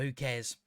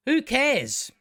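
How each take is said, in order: First: Soft, low throwaway shrug; indifferent, voice dropped low; offhand dismissal. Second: High, exclaimed dismissal; exasperated, high-pitched outburst; emphatic dismissal. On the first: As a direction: toss it away quietly. Dismisses own possible mistakes. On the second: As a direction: throw it out with voice leaping up. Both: Real, not acted.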